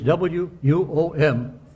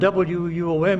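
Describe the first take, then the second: First: A glottal stop breaks the letters apart. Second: The letters flow together smoothly, elided. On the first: The speaker calls it wrong. "if they have what we call a glottal stop in broadcasting" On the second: The speaker calls it right. "if you elide it correctly"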